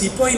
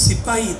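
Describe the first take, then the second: First: It is said the anglicized way, like 'sepoy'. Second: It is said the Hindi way, like 'sipahi'. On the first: This is the form the English used. The speaker calls it wrong. "अरे वो कोई सिपाही नहीं" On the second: This is the original Indian form. The speaker calls it right. "सिपाही था। अंग्रेजी लोग उसको प्रोनाउंस नहीं कर सकते।"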